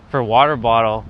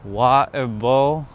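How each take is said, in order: First: Said in the usual way. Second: Slow British water bowl, no T; water bowl with the T dropped, British style. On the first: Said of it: "We miss the T's out". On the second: Shown as a demonstration. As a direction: drop the T, slow and careful. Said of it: "I say".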